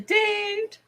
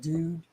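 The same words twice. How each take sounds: First: The word is said in a higher, lighter voice. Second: The word is said in a deep, bassy voice. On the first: The speaker calls it wrong. "You don't say dude" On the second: The speaker calls it right. "you have to say dude with some bass in your voice"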